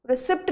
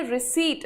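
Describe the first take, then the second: First: रिसिप्ट said "ri-sipt" with the p sounded, shown as the mistake; रिसिप्ट, quick, with a pronounced p before the t; wrong pronunciation. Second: रिसीट said "ree-seet" with a silent p; रिसीट, no p sound, ending in a clean t; correct pronunciation. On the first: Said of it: "It is not receipt". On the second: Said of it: "रिसीट बोलते हैं इसको". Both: Shown as a demonstration.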